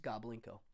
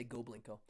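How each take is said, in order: First: Goblinko with a short "ah" in the first syllable; correct pronunciation. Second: Goblinko with a long "oh" in the first syllable; habitual mispronunciation. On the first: Host correcting a viewer's name, Goblinko starting with "gob". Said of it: "It's actually pronounced Goblinko". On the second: Host admitting his habit, Goblinko starting with "go". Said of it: "I always say Goblinko". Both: Shown as a demonstration.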